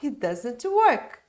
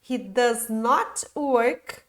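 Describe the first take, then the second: First: Does not is contracted into one word. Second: Does not is said as two full words. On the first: The speaker calls it right. "forma reduzida" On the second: The speaker calls it wrong. "forma longa"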